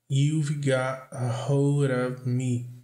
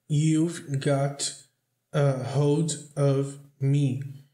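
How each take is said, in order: First: The words run together in connected speech. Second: Each word is said separately and carefully. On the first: "depois vou pronunciar de novo do jeito que soa na música" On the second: "eu vou falar primeiro palavra por palavra do jeito formal"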